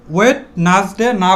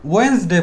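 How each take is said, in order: First: ওয়েডনেসডে spelt out as "wet-nas-de"; rejected pronunciation. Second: ওয়েডনেসডে shortened to two syllables, "wens-de"; corrected pronunciation. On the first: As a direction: keep the t and middle syllable in ওয়েডনেসডে. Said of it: "না বলে". (ওয়েডনেসডে-কে "ওয়েটনাসডে" বলা) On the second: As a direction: drop the d in ওয়েডনেসডে. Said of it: "না বলে ওয়েডনেসডে বলবো". (ওয়েডনেসডে সংক্ষেপে "ওয়েন্সডে") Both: Shown as a demonstration.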